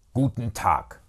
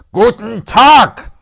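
First: Restrained, firm brush-off; curt dismissal. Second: High, very loud, drawn-out shout; furious dismissal. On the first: Uncle dismisses nephew the first time, curt. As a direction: close the conversation firmly without raising the voice. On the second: Uncle yells nephew out of office, furious shout. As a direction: explode on both words. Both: Acted.

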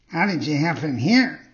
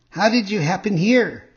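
First: Cat's parroting character voice; cat echoing. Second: Higher-pitched fox character greeting. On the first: Cat repeats the fox's greeting, in a cat character voice. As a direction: echo it as the dim sidekick cat. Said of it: "repeated the cat". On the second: Fox greets the marionette, higher-pitched character voice. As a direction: voice a fox hailing someone, pitched up. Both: A narrator's reading.

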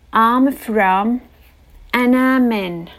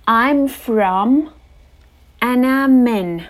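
Both takes have the same delivery.

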